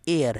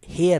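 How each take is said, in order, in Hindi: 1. यह शब्द स्वर ध्वनि से शुरू होता है। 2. यह शब्द 'h' ध्वनि से शुरू होता है। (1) "एयर है" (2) "ये हेयर नहीं"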